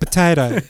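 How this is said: It is said in a foreign Australian accent. The speaker calls it wrong. "You just said it with the wrong accent"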